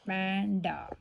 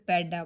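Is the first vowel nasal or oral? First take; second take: nasal; oral. First: The first vowel is said through the nose. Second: The first vowel is said without nasal sound. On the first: The speaker calls it right. "ਇਹ ਬਣ ਗਿਆ ਪੈਂਡਾ" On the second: The speaker calls it wrong. "ਜੇ ਉੱਪਰ ਬਿੰਦੀ ਨਾ ਹੁੰਦੀ ਫਿਰ ਪੈਡਾ ਬਣ ਜਾਣਾ ਸੀਗਾ"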